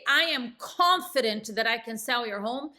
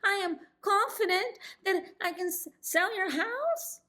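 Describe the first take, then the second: First: It is said smoothly and confidently. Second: It is said haltingly, with a stumble.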